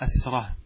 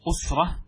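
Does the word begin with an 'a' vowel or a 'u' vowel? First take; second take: a; u. First: The first vowel is an open 'a' sound. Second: The first vowel is a rounded 'u' sound. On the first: It means a strong group of people. "بفتح الهمزة" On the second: It means strength, armour, or a man's close kin. "أما بالضم"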